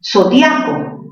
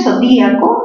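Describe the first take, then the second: First: Zodiaco slowly, dia one stressed syllable; diphthong ia. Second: Zodíaco with stressed í split from the a. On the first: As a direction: say Zodiaco as so-DYA-co. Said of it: "mayor fuerza en dia". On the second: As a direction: break zodíaco as so-DÍ-a-co. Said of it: "ahí sí la tildas". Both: Shown as a demonstration.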